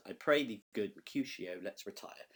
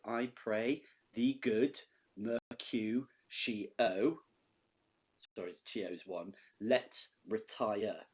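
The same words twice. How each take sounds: First: Said in the usual way. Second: Slow, each syllable counted out; beats spelled out. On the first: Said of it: "And that's ten beats in the line". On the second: Shown as a demonstration. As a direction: tap out every beat of the line slowly. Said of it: "which is your first double beat".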